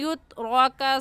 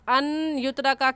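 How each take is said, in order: First: The n sound is merged into the following y. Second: The n sound is said separately before the y. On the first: The speaker calls it right. "इस या के साथ नून को मिलाएंगे" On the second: The speaker calls it wrong. "कहना गलत होगा"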